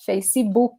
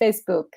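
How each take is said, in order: First: It is said with a Brazilian Portuguese pronunciation. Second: It is said with an English pronunciation. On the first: The speaker calls it right. "That's how Brazilians say these things" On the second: The speaker calls it wrong. "We don't say Facebook"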